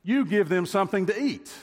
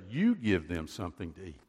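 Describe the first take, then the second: First: "You" hit hard, much higher and louder, a firm command; Jesus handing the job back to his disciples, emphatic command. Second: Said in the usual way. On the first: Shown as a demonstration. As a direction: punch "You", then the rest of the order. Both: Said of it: "is emphatic in the Greek".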